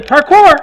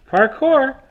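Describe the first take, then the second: First: Parkour! yelled much higher and louder; parkour shout. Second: Parkour! called higher, falling off; a second, milder Parkour! call. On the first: He runs around with the cat, shouting Parkour! high and loud. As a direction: shout Parkour! while running. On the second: Still running with the cat, a higher but milder Parkour! call. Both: Shown as a demonstration. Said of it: "I just wanted to show that routine".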